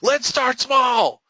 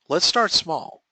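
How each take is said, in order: First: It is said very loudly and forcefully. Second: It is said calmly and easily. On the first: It implies something big. The speaker calls it wrong. "do I say it really loud?" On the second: It sounds reasonable and easy to agree to. The speaker calls it right. "Nice and reasonable. Nice and easy"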